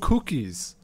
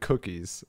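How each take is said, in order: First: The word is said with a foreign accent. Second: The word is said in plain English. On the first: "Like just the same exact word with an accent" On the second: "instead of cookies"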